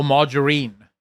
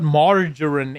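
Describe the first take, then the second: First: "margarine" ending in a long EEN; alternative pronunciation. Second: Said in the usual way. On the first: Shown as a demonstration. To viewers unsure of the word, "margarine" ending in -een. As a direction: say "margarine" as marja-REEN. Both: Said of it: "It's the pronunciation".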